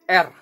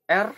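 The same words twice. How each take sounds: First: The letter is named with an Indonesian pronunciation. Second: The same.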